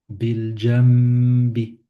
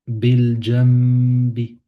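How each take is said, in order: No difference in how they are said.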